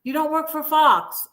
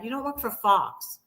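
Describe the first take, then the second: First: Higher-pitched mock dismay; mock realization. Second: Said in the usual way. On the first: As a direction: repeat it higher, as a sarcastic discovery. Mock realization repeated with emphasis.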